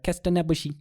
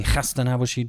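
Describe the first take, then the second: First: "Kesta" with a plain K for the throaty kh; foreigners' pronunciation. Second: "Chasta" opened with a throaty kh; hard H. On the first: Retold or imitated. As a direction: imitate a foreigner saying "Kesta" with a simple K. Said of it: "I find the foreigners that have come to Iran". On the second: Shown as a demonstration. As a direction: rasp the H in "Chasta" at the back of the throat. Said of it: "Khe, the hard H".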